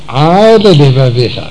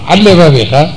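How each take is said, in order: First: It is said slowly, with both L sounds separate. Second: It is said fast, with the two L sounds merged. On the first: The speaker calls it right. "כשקצת מעריך אפו, עושה את זה לאט לאט" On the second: The speaker calls it wrong. "רץ, אז למד אחת פרחה מסכנה"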